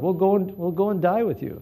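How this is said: It sounds bold and determined. The speaker is courageously committed to standing with someone. "he was really a brave guy. He really stood with the Lord"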